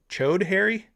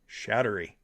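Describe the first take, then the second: First: The name begins with a 'ch' sound. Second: The name begins with an 'sh' sound. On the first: The speaker calls it wrong. "Not Chode Harry. Because that don't sound right" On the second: The speaker calls it right. "We're gonna say sh- sh- Showd Harry"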